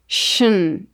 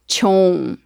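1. O sufixo é falado com vogal reduzida. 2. O sufixo é falado com a vogal o plena. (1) "precisamos caprichar na pronúncia, shn" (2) "e não chon"

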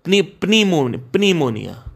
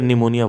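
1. यह शब्द एक सुनाई देने वाली P ध्वनि से शुरू होता है। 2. यह शब्द N ध्वनि से शुरू होता है, P नहीं।

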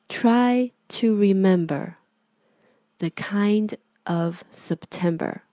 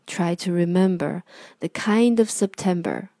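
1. 这一句读得比较慢。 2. 这一句读得比较快。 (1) "那我们开始读第一遍。" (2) "语速稍微快一点。"

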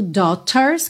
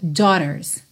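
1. O t é um som de t claro e nítido. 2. O t é um flap suave, como o r. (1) "tanto pode ser falado como um T mesmo, daughters, que fica mais britânico" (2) "na pronúncia americana a gente pode usar um rarara"

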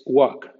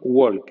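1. El sonido de la L es mudo en la palabra. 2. El sonido de la L se pronuncia en la palabra. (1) "en ALK la L no existe" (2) "No walk"

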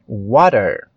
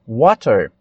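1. O T é um tepe suave entre D e R. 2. O T é um som de T nítido e claro.

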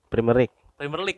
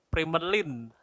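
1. Akhirannya diucapkan penuh sebagai 'league'. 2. Akhirannya digabung jadi 'lin'. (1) "Harusnya apa? Premier League" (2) "gue bilangnya itu Primerlin"

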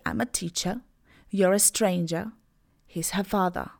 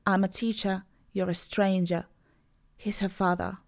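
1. Końcowe dźwięki R są pomijane jako schwa. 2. Końcowe dźwięki R są pomijane jako schwa.

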